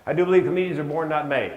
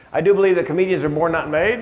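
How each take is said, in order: First: Second take, leaning on "not"; stress on not. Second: "made" lifted with a rise, louder take; first take, punching "made" upward; stress on made. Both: Shown as a demonstration.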